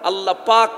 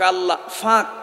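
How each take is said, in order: First: The second word begins with a p sound. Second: The second word begins with an f sound.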